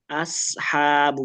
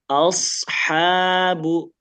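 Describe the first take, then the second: First: The s sound is thin and plain. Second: The s sound is thick and rounded. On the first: "Kalau sin" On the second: "Naik ke atas"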